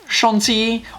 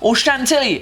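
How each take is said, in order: First: It is said with a French accent. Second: It is said with an American accent.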